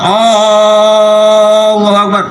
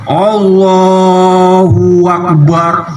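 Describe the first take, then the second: First: The opening vowel is drawn out long. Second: An extra w sound links the two words. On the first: "jangan panjangin mat. Mat hamzahnya itu" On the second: "Ada wawunya"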